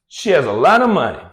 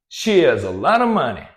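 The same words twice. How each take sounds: The two takes are said the same way.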